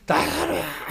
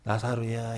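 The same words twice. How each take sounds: First: It is called loudly and forcefully. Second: It is called softly and feebly.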